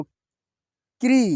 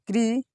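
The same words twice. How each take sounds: First: क्री stretched very slowly, every sound held; drawn-out sounding out. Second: Said in the usual way. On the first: Shown as a demonstration. Teacher sounding out क्री slowly for pupils. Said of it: "teacher sounding out syllable". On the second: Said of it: "teacher repeats syllable normally".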